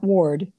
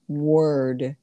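First: The vowel sounds like 'or' in 'for'. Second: The vowel sounds like 'er' in 'her'. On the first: The speaker calls it wrong. "Not ward" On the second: The speaker calls it right.

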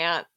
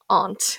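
First: It is said in a New Jersey accent. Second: It is said in the speaker's normal accent.

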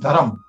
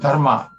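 First: Northern Indian form, ending in -am. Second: Southern Indian form, ending in -ma.

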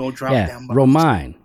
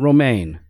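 First: The name does not sound like romaine lettuce. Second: The name sounds like romaine lettuce. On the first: The speaker calls it right. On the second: The speaker calls it wrong.

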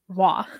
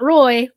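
First: The name is said like 'wah', without an r-sound. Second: The name is said like 'roy', rhyming with boy. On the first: The speaker calls it right. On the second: The speaker calls it wrong.

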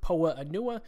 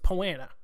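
First: The word is said in a longer, split form. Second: The word is said in a shorter, merged form. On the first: The speaker calls it wrong. "I used to pronounce it Poa-Anua. No" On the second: The speaker calls it right. "I have nailed it. It's Poana"

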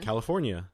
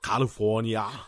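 First: It is said in a plain American accent. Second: It is said with an Australian-Filipino sounding accent.

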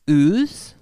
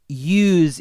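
First: The word begins with an oo sound. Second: The word begins with a y sound.

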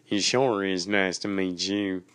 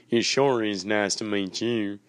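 Both takes have the same delivery.

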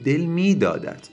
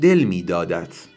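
First: The stress falls on the second word. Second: The stress falls on the first word. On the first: The speaker calls it right. "آکسان به نظر من روی میدادته" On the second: The speaker calls it wrong. "بعضی میگن بگین دل میدادت"

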